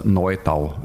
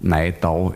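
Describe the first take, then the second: First: "Neudau" with the eu said as oy; Standard German name. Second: "Neidau" with ei in place of eu; dialect name. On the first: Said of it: "Neidau im Dialekt sagen wir heute noch". ("Neudau" hochdeutsch, mit eu) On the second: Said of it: "Neidau im Dialekt sagen wir heute noch dazu". ("Neidau" im Dialekt, mit ei) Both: Shown as a demonstration.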